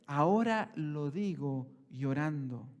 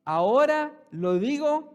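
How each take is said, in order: First: Slow, lower, a hint of weeping; tearful Paul. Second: Louder, higher, slowed proclamation; preacher booming Paul's words at the congregation; Paul's declaration. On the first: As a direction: let it sink, mildly tearful. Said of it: "Pablo dice". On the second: Retold or imitated. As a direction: proclaim it loud and slow. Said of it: "Y aún que dice".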